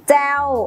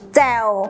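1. พยางค์นี้ออกเสียงตก 2. พยางค์นี้ออกเสียงต่ำ (1) "มีเสียงวรรณยุกต์โท" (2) "มีเสียงวรรณยุกต์เอก"

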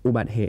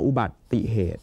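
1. พูดโดยไม่มีพยางค์ 'i' เชื่อมระหว่างสองส่วน 2. พูดโดยมีพยางค์ 'ti' เชื่อมระหว่างสองส่วน (1) "ถ้าเราอ่านแบบนี้ ... อย่างนี้เราจะยังอ่านไม่ถูกต้อง" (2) "เราต้องอ่านว่า"

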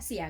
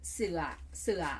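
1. คำนี้ออกเสียงด้วยสระ 'ia' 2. คำนี้ออกเสียงด้วยสระ 'uea' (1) "ถ้าออกเสียงอีหลีมันต้องออกว่าเสีย" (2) "แม่หนิงก็บ่ได้เว้าว่าเสีย"

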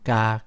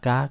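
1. พยางค์นี้พูดด้วยเสียงกลาง 2. พยางค์นี้พูดด้วยเสียงสูง (1) "สามัญ" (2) "ตรี"

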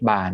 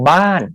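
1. คำนี้มีเสียงสามัญ 2. คำนี้มีเสียงตก (1) "ไม่มีไม้อะไรจะอยู่เสียงสามัญ" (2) "ไม่โท"

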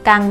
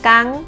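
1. พยางค์นี้มีเสียงต่ำ 2. พยางค์นี้มีเสียงสูง (1) "กังไม่เอก" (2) "กังไม่ตี"

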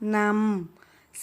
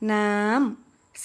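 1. พยางค์นี้ออกเสียงระดับกลาง 2. พยางค์นี้ออกเสียงสูง (1) "เสียงสามัญ" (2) "เสียงตรี"

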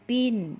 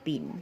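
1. พยางค์นี้มีเสียงสูง 2. พยางค์นี้มีเสียงกลาง

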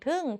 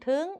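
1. พยางค์นี้พูดด้วยเสียงตก 2. พยางค์นี้พูดด้วยเสียงสูง (1) "โท" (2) "ตรี"

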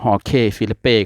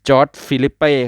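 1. ชื่อแรกขึ้นต้นด้วยเสียง 'h' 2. ชื่อแรกขึ้นต้นด้วยเสียง 'j'

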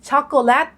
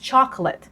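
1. คำนี้ออกเสียงแบบไทย 2. คำนี้ออกเสียงแบบอังกฤษ (1) "แทนที่จะพูดช็อกโกแลต" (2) "ต้องออกเสียงให้เหมือนเขานะคะ"

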